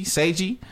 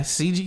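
First: "Seiji" with an ay sound in the first syllable; SAY-jee pronunciation. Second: "C G" with a long ee in the first syllable; SEE-jee pronunciation. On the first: Trying out how to read the rival's name, SAY-jee pronunciation. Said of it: "if you see S E I". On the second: Trying out how to read the rival's name, SEE-jee pronunciation. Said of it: "if it's S E I". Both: Shown as a demonstration.

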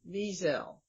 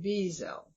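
First: Wiesel with a clear V and the stress up front, VEE-zel; stress on first syllable. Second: Wiesel with the stress on the first syllable, VEE-zel. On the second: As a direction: lean on the start of Wiesel: VEE, then a light zel. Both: Shown as a demonstration. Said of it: "emphasize the first syllable".

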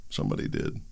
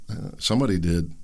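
First: Whispered, much softer and lower; whispered aside. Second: Said in the usual way. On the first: Real, not acted. Commentator repeating his point in a hushed whisper. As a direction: drop to a knowing whisper.

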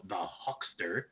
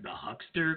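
First: "Huckster" drawn out slowly with an open "ah", like "Hockster"; name as given. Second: "Huckster" higher, with a short "uh" as in "luck"; tempting mispronunciation. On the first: Real, not acted. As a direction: announce "Huckster" slow and low-key as "HOCK-ster". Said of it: "every time I say that". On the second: Shown as a demonstration. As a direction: say "Huckster" as "HUCK-ster", pitched up. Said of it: "I wanna say, like".

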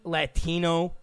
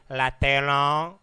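First: Said in the usual way. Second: "Latino" drawn out, imitating friends' way of saying it; friends' pronunciation. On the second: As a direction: stretch "Latino" slowly, vowels changed to "la-teh-nah". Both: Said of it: "or as some of my friends say".

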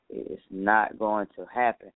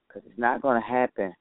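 First: Every word spaced out, deliberate; slow and emphatic. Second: Said in the usual way. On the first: Real, not acted. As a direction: lay it down slowly, word by word. Slow emphatic repeat of the line.

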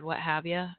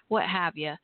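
First: Repeated with a light Texas accent; southern accent. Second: Light Texas accent on what have ya; casual Southern phrasing, Texas style. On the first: Shown as a demonstration. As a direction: show off a Southern accent, casually. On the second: Real, not acted. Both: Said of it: "can you hear my southern accent when I said".

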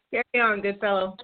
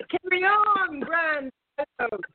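First: Mock British accent. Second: High, posh-sounding British put-on; mock British accent. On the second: Cohost redoes the line in a hammed-up British accent. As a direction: play the English gent, pitched way up. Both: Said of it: "you said it with such a great accent".

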